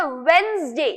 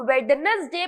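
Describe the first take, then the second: First: वेडनेसडे with a silent first d, as "wenz-day"; correct Wednesday pronunciation. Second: वेडनेसडे with the silent d sounded, as "WED-nes-day"; the common mistake in वेडनेसडे, sounding out "wed-nes"; mispronounced Wednesday. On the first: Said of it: "इसका सही pronunciation है". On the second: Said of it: "जो कि actually wrong है". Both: Shown as a demonstration.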